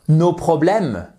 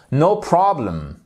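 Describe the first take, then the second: First: NOS PROBLÈMES said with French vowels and end stress; drawn-out French-style "nos problèmes" for "no problem"; French-accented mispronunciation. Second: NO PROBLEM with English r, stress on PROB; English "no problem", second word weakened at the end; correct English pronunciation. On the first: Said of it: "prononcez correctement. C'est pas". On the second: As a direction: say "no problem" like a native, falling after PROB. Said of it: "prononcez correctement". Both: Shown as a demonstration.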